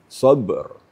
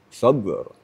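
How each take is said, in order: No difference in how they are said.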